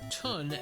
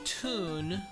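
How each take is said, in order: First: The vowel is a short 'uh' sound. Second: The vowel is a long 'oo' sound. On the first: This is how some other people say it. "as some people call it" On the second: This is the speaker's own habitual pronunciation. "I call it Toon"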